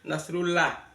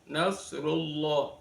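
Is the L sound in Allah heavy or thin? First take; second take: thin; heavy. First: The L of Allah is thin and light. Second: The L of Allah is heavy and thick. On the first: The speaker calls it wrong. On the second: The speaker calls it right. "dibaca tafkhim, dibaca tebal"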